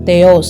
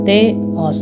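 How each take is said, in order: First: The two vowels run together in one syllable. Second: The two vowels are split into two syllables. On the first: The speaker calls it wrong. "தேயோஸ் அப்படின்னு சொல்லாமல்" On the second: The speaker calls it right. "ரெண்டாக இருக்கிறனால"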